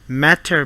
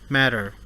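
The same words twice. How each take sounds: First: The middle T is a crisp, hard T. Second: The middle T is a soft, quick tap.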